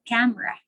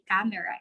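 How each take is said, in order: First: The middle vowel is dropped, two syllables. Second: The middle vowel is pronounced, three syllables. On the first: The speaker calls it right. "it's camera" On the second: The speaker calls it wrong. "We don't say camera"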